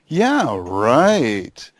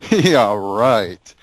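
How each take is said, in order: First: It sounds warm and approving. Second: It sounds scornful and dismissive. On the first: The invitation is accepted. "you might approve of their proposal" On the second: The invitation is rejected. "completely deny what they're saying"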